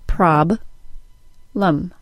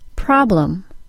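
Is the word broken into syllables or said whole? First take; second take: broken; whole. First: The word is split into separate syllables. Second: The word is said as one smooth unit. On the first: "then I'll break it into syllables" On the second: "I'll say the word as a whole unit first"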